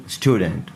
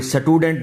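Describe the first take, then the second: First: स्टूडेंट starting straight on st; vowelless initial s. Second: स्टूडेंट said "sa-tudent", short "a" after s; wrong added vowel. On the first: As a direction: model स्टूडेंट with s joined to t. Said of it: "कोई ज़बर ज़ेर पेश नहीं". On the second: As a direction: split the st in स्टूडेंट, sa-tu-dent. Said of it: "नहीं बोलना". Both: Shown as a demonstration.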